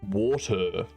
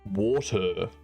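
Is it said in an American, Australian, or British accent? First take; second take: American; American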